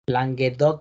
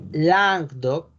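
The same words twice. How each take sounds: First: The name is said with Spanish pronunciation. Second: The name is said with French pronunciation. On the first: "en español" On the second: "es Languedoc"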